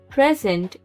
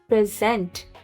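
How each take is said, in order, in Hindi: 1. Stress पहले syllable पर है। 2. स्ट्रेस दूसरे सिलेबल पर है।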